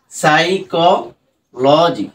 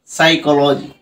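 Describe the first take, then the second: First: সাইকোলজি said slowly, syllable by syllable, with pauses; সাইকোলজি chopped into slow separate syllables; broken into syllables. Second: Said in the usual way. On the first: Shown as a demonstration. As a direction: split সাইকোলজি into its parts, very slowly. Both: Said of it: "এভাবে তুমি কিন্তু বড় বড় শব্দগুলোকে".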